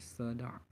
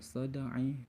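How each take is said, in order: First: The word ends on a bare consonant. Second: The word ends with a short vowel. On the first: The speaker calls it right. "Karena dua huruf dimatikan" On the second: The speaker calls it wrong.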